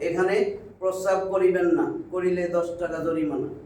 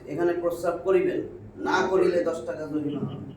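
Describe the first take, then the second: First: The pause comes after 'না'. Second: The pause comes before 'না'.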